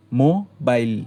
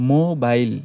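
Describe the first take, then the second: First: মোবাইল broken into মো and বাইল; মোবাইল split into its two syllables. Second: Said in the usual way. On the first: Shown as a demonstration. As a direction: say মোবাইল in two separate beats. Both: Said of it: "দুইবার ভাঙা যায়".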